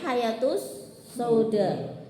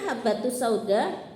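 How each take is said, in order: First: The first word has a y sound in the middle. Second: The first word has a b sound in the middle. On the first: It names something else, causing confusion. The speaker calls it wrong. "Malah bacanya hayatus sauda. Kan bahaya" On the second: The speaker calls it right. "jane kan habatus sauda"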